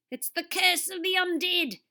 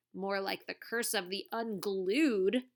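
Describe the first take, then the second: First: Put-on high, loud dramatic decree, Australian accent; hoarse decree. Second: Said in the usual way. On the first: A narrator's reading. TV star decrees his curse from the tree, hoarse. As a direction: proclaim doom in a hammed-up Aussie voice. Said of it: "Derek decreed hoarsely". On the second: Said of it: "thought Wahoo".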